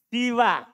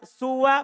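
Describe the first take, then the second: First: The first vowel is i. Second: The first vowel is u. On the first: "namanya siwa" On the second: "bisa dibaca suwa"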